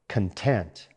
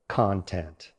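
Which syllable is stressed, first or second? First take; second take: second; first. First: The stress is on the second syllable. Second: The stress is on the first syllable. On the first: It means being satisfied or happy. "with stress on the second syllable" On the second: It names the material or subject matter inside something. "Stress on the first syllable"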